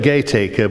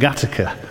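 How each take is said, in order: First: It is read as spelled, like 'Gaytaker'. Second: It is said in the local way, like 'Gattaca'. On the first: This is how the name is written. "They spell it Gaytaker" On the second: This is how local people say the name. "but they pronounce it Gattaca"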